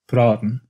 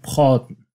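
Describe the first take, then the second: First: The R is said in the ordinary way. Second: The R is said as the French-influenced R. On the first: This is the usual pronunciation of the word. "in to talk" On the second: This is the pronunciation of certain cities. "sounds like praten"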